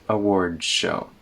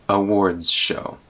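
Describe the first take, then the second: The two takes are said the same way.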